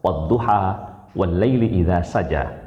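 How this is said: It is recited in the Hafs reading style. This is the commonly used reading. "kalau kita membaca riwayat Hafiz"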